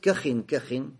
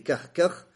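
First: Each part ends with an added '-in' syllable. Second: Each part ends on a bare 'kh' sound. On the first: "а можно с танвином" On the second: "можно с сукуном"

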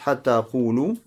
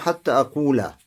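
First: The verb ends with a 'u' vowel. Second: The verb ends with an 'a' vowel. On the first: "в состоянии рафа, то есть марфу делать" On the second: "мансуб делать глагол"

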